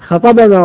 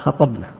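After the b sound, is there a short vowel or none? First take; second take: vowel; none. First: The b is followed by a short a vowel. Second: The b has no vowel after it. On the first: He gave us the sermon. The speaker calls it right. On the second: We gave the sermon. The speaker calls it wrong.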